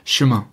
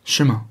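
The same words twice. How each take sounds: Both takes have the same delivery.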